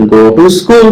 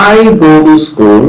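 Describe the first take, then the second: First: "go to school" asked as a question, rising on "school"; question intonation. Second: "I go to school" said slowly as a statement, falling on "I"; answer intonation. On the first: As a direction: lift "school" at the end like a question. ("school" শব্দে প্রশ্নের মতো উঠতি সুর) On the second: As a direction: give a slow, settled answer with a falling tune. ("I" শব্দে জোর দিয়ে ধীরে নামানো সুরে উত্তর) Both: Shown as a demonstration. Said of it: "intonation দিয়ে".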